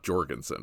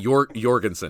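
First: The name has an English pronunciation. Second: The name has a Scandinavian pronunciation. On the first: The speaker calls it wrong. "not Jorgensen" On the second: The speaker calls it right. "Scandinavians say Jorgensen"

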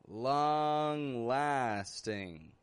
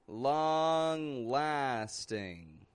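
The two takes are said the same way.

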